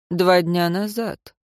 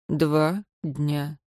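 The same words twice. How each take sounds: First: Said in the usual way. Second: Quiet, low, pointed; cold repeat. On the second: A narrator's reading. Adviser pointedly repeating the date, quiet and low. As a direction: drop it quietly, pressing on two days.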